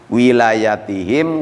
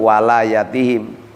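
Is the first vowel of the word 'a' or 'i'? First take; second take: i; a. First: The first vowel is an 'i' sound. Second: The first vowel is an 'a' sound. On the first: "dibaca kasroh wawunya" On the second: "fathahnya wawu"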